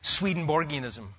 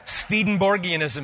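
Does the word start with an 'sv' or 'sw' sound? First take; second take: sw; sv. First: The second sound is a W. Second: The second sound is a V. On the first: The speaker calls it wrong. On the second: The speaker calls it right.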